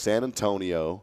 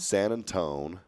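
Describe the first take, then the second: First: The name ends with an "-io" sound. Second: The name ends with a clipped "-tone" sound.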